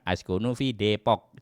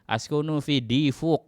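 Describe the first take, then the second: First: The city name is said with Indonesian sounds. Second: The city name is said with Arabic-style sounds. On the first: The speaker calls it right. "tetapi sampaikan askunu fi Depok" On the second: The speaker calls it wrong. "misalkan askunu fi Difuk. Enggak"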